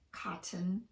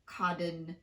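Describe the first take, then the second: First: The T is fully pronounced. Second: The T is tapped like a quick D. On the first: The speaker calls it right. "it's safe to just fully pronounce the T" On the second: The speaker calls it wrong. "but not"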